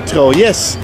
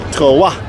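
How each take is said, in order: First: The name is said with a Dutch pronunciation. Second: The name is said with a French pronunciation.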